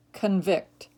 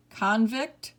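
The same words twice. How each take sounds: First: Kun-VICT, second syllable stressed, falling. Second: CON-vict, first syllable stressed, rising. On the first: Teacher giving other pronunciation, convict as kun-VICT. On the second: Teacher reading word list to students, convict as CON-vict. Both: Shown as a demonstration. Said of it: "give you both pronunciations".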